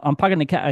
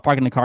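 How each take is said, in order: First: Put-on half-hearted Boston accent, dropped r in "car"; lightly imitated Boston accent. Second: Said in the usual way. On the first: Host retells a car commercial, half-hearted Boston accent. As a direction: toss off a quick Boston accent. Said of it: "I can't do a Boston accent".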